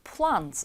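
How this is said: The vowel is the open 'ah' of father.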